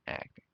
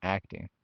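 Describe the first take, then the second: First: Acting repeated softly, to oneself; Acting murmured back softly; soft echo. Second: Acting said firmly as a correction; Acting, stated firmly. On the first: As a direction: let Acting drop quietly. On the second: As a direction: land Acting with a clear push. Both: Shown as a demonstration. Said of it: "Not pretending. Acting".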